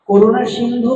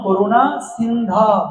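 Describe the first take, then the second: First: The final word ends with an 'u' vowel. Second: The final word ends with an 'o' vowel. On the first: The speaker calls it wrong. "করুণা সিন্ধু নয়" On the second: The speaker calls it right. "ব্যাকরণে পুরো ভুল"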